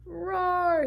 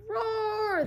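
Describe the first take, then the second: First: Loud, higher roar; big roaring lion. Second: Even higher, fuller lion roar; lion roars again, with more feeling. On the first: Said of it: "he added". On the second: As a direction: give the roar everything you've got. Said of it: "this time with a little more feeling". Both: Acted.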